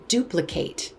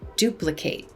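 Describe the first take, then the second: First: The final syllable sounds like 'eight'. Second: The same.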